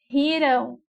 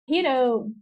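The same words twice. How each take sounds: First: "riram" slowly, with a long RI; stress on first syllable. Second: "rirão" landing firmly on RÃO; stress on last syllable. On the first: Teacher modelling the past tense, "riram" with RI stressed. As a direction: draw out RIII-ram in "riram". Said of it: "a sílaba mais forte é a penúltima". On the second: Teacher modelling the future tense, "rirão" with RÃO stressed. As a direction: lean on the end of ri-RÃO in "rirão". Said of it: "ela é oxítona". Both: Shown as a demonstration.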